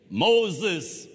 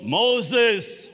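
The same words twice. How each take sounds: First: Said in the usual way. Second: Loud ringing call of a name; God calling out. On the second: Acted. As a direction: call the name out across the desert. God calling Moses in wilderness.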